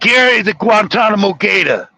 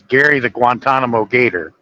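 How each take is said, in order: First: It is said in a put-on Northeastern accent. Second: It is said in the speaker's ordinary accent. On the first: The speaker calls it right. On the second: The speaker calls it wrong.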